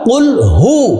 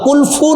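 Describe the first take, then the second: First: The second word begins with an h sound. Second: The second word begins with an f sound. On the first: The speaker calls it right. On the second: The speaker calls it wrong. "অনেকে এটাকে বলে কুল ফু ওয়াল্লাহ, কুল ফু না"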